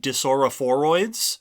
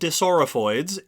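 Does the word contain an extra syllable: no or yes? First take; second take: yes; no. First: The word has an extra syllable in the middle. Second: The word has no extra syllable in the middle. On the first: The speaker calls it wrong. "I accidentally wrote an extra syllable into that word" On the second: The speaker calls it right. "So they're called Disoraphoids"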